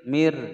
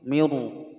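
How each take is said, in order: First: The word ends on the r with no vowel. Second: An extra vowel sound follows the r. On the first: The speaker calls it right. "mir tipis ya" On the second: The speaker calls it wrong. "tidak boleh membaca miru, salah"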